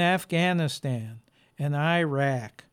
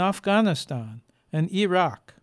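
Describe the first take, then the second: First: The names are said with an American pronunciation. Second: The names are said as native speakers say them. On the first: The speaker calls it wrong. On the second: The speaker calls it right.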